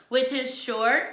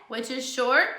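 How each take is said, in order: Both takes have the same delivery.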